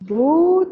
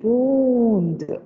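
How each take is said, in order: First: The vowel is not said through the nose. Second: The vowel is said softly through the nose. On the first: The speaker calls it wrong. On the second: The speaker calls it right.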